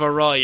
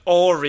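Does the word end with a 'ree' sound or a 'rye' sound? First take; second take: rye; ree. First: The word ends with a 'rye' sound. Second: The word ends with a 'ree' sound. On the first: The speaker calls it right. "instead of awry" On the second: The speaker calls it wrong. "I said awry instead of"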